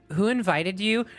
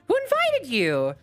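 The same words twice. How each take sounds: First: The question sounds cold and unwelcoming. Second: The question sounds warmer and more welcoming. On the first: The guest is not welcome. "Like D is like" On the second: The guest is somewhat welcome. "And C is, ... It's about the tone"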